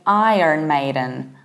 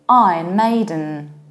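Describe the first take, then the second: First: It is said in an American accent with R. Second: It is said in a British accent without R. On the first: "in the American accent" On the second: "if you want to sound even more British"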